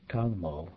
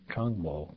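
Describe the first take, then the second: First: Tangmo with no r after the T; dropped R. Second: Said in the usual way. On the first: Shown as a demonstration. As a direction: open Tangmo on a simple t, no r. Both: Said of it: "without the R sound in the first syllable".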